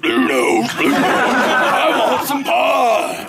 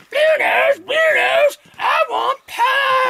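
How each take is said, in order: First: Big roaring bellow, drawn out slowly; hammed-up creature roar; corrected monster voice. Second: Very high screeched demand, drawn out at the end; squealing, hammed-up scream for food. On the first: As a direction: bellow it like a huge hungry beast. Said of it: "she doesn't talk like that, excuse me". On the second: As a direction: screech it like a ravenous creature. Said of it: "she comes screaming through the poleyard".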